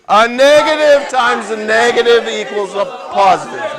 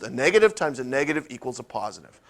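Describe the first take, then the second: First: It is said very loudly. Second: It is said at normal volume.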